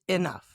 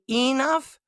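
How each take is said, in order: First: The first vowel sounds like 'eh'. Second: The first vowel sounds like 'ee'. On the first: "but it's really eh" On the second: "Some people say enough"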